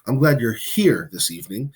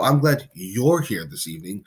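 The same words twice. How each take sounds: First: The word here carries the main stress. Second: The word you're carries the main stress. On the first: The person is physically present with the speaker. "You're glad that the person is here, literally with you" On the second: This particular person is welcome, unlike others. "means that you are glad that the person specifically is there"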